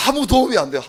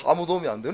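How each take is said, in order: First: Higher and louder, 도움이 punched hard; a pastor ruing that wrestling is useless; emphatic exclamation. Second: Said in the usual way. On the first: Real, not acted. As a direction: exclaim it in frustration.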